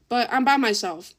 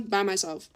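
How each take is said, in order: First: "by myself" punched, louder; stress on by myself. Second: Said in the usual way. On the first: Real, not acted. Telling friends about being abandoned, stressing "by myself". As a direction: lean hard into "by myself", alone at a party.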